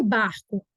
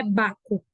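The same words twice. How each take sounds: First: "barco" with the R heard before C; "barco", both R and C sounded. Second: "baco" with no R; "baco", straight from vowel to C; wrongly missing R. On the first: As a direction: pronounce the R closing the first syllable of "barco". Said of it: "o R tem som". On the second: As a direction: drop the R to say "baco". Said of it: "Não é baco". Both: Shown as a demonstration.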